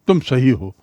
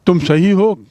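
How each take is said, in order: First: Said in the usual way. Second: Louder echo as a question; checking the phrase aloud. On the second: Shown as a demonstration. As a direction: turn the words back into a question. Teacher echoes reply as question.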